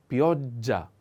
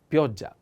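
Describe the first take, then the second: First: Pioggia slowly, holding the double g; slow double consonant. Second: Said in the usual way. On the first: Shown as a demonstration. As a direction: split pioggia as piog-gia for a learner. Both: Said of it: "pay attention to this, uh, uh, double consonant".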